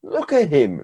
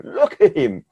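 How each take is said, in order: First: Said in the usual way. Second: High, laughing repeat of the words; laughing with joy. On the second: Acted. Parent of the healed boy laughing in amazement, joyful laugh.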